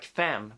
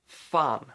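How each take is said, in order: First: "fan" with the vowel of "cat"; English pronunciation. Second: "fan" with an ah vowel, as in Swedish; Swedish pronunciation. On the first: Teacher compares it to the English word, "fan" said the English way. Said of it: "it has a completely different meaning in Swedish". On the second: Teacher introduces the Swedish curse word, "fan" pronounced with an ah. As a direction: say "fan" the Swedish way, with a long open ah. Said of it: "The first word I'm gonna teach you". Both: Shown as a demonstration.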